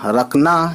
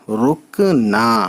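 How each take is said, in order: First: The first vowel is an 'a' sound. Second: The first vowel is a 'u' sound. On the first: The speaker calls it wrong. "रे और ये काफ, तो रक नून अलिफ जबर ना" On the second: The speaker calls it right. "रे पेश रू और काफ, रुक नून और अलिफ ना"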